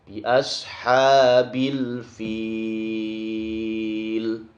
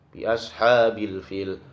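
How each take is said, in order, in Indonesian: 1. Vokal pada kata terakhir dibaca panjang. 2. Vokal pada kata terakhir dibaca pendek. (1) "Sangat panjang sekali" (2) "dibaca pendek"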